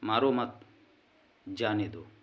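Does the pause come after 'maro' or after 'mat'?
after mat. The pause comes after the word 'mat'. Do not hit him; let him go. "अर्थात उसे जाने दो, मत मारो"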